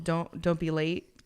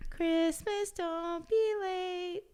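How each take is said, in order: First: Said in the usual way. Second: High squeaky chipmunk, much higher, slow. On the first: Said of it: "that was a good Chipmunk voice". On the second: Shown as a demonstration. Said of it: "that was a good Chipmunk voice on my behalf".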